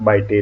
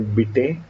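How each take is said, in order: First: The name is said like English 'bite'. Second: The name is not said like English 'bite'. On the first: The speaker calls it wrong. "not Bite" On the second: The speaker calls it right. "they would call me Bite"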